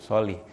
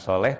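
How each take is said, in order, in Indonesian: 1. Vokal terakhir terdengar seperti i. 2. Vokal terakhir terdengar seperti e. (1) "tapi solih"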